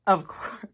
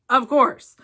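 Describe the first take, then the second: First: Said in the usual way. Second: "of course" said again louder and firmer; second "of course" louder for emphasis; emphatic repeat. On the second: Real, not acted.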